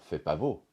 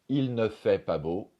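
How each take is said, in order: First: The phrase begins directly with 'fait'. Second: The phrase begins with 'il ne'.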